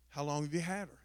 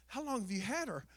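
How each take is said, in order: First: Lightly voiced vet, a lower pitch; imitating the vet. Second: Lightly voiced lady, a higher pitch; imitating a lady. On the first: Vet asks owner about the dog, lightly imitated. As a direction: drop it slightly for the vet's question. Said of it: "The vet comes in". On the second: Lady at the vet's asks about the dog, lightly imitated. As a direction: raise it slightly for the lady's question. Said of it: "the lady that was out there".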